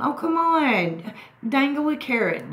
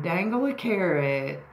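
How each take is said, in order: First: Excited teasing call. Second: Said in the usual way. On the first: Real, not acted. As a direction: coax him out with a big playful call. Teasing a silent viewer to speak.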